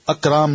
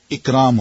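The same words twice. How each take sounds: First: اکرام said as "akram" with an open a at the start; the mistaken "akram" reading of اکرام; wrong vowel. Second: اکرام said as "ikram" with a clear short i at the start; correct vowel. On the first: Teacher mimics the student's wrong reading, "akram". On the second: Teacher gives the correct reading, "ikram". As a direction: give اکرام its proper "ikram" sound. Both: Shown as a demonstration. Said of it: "اکرام نہیں ہوگا، اکرام ہوگا".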